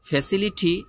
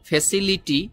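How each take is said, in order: First: The t is aspirated with a puff of air. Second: The t is a plain unaspirated sound. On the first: The speaker calls it right. "ঠর মতো করে এই টির উচ্চারণ টি করে ওরা" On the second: The speaker calls it wrong. "আপনি যদি বলেন এভাবে ফ্যাসিলিটি হবে কিন্তু বেশি একটা সুন্দর হবে না"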